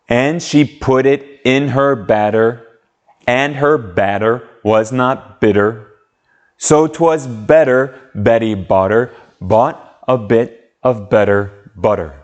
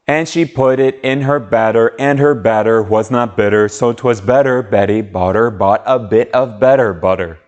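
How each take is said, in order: First: It is said at a slow pace. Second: It is said at a faster pace.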